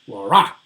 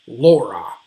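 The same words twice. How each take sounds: First: Laura misread as lau-RA, RA loud; wrong final stress. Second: Laura as LAU-ra, first syllable loud; initial stress. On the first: Teacher shows what sounds wrong, Laura stressed on RA. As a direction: punch the RA in Laura. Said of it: "it would not sound right to call". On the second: Teacher lists colleagues' names correctly, Laura stressed on LAU. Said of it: "have an initial stress". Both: Shown as a demonstration.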